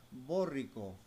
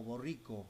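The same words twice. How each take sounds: First: "borrico" misread as BÓ-rri-co; stress on first syllable. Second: "borrico" as bo-RRI-co; stress on middle syllable. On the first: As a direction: punch the BO of "borrico", slowly. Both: Shown as a demonstration. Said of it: "¿Cómo se pronuncia esto?".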